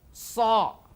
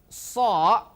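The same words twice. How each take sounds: Both takes have the same delivery.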